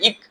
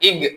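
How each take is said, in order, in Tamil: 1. மெய் கடினமாகவும் ஓசையற்றதாகவும் உச்சரிக்கப்படுகிறது. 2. மெய் மென்மையாகவும் ஓசையுடனும் உச்சரிக்கப்படுகிறது. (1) "அதை இக் அப்படின்னு உச்சரிக்கிறது இல்லை" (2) "இக் அப்படின்னு நம்ம உச்சரிக்கிறோம்"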